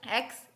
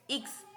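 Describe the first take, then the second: First: Said in the usual way. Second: German X named इक्स, not "eks"; German letter X. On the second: Shown as a demonstration. Teacher drilling German X after English, इक्स as "iks".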